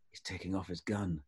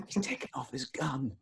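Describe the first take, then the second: First: Low, much softer murmur; hushed warning. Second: Hushed repeat. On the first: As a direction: warn him under your breath. Friend whispering a warning at dinner. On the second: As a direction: say it again under your breath. Friend repeating the warning. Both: Retold or imitated.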